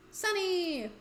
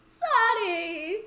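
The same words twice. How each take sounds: First: A droopy, sad call of the name; sad Sunny. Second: High, loud, rising joyful cry of the name; excited call. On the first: Friend finding Sunny, calling her name sadly. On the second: Friend finding lost Sunny, joyful loud call. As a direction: shout her name with relief and joy. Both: Acted. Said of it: "Oh, that was a sad Sunny".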